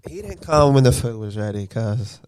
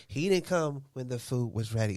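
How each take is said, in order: First: Imitating the wife. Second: Mocking the wife. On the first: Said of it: "At least a little like I actually talk". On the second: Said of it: "I don't talk like that".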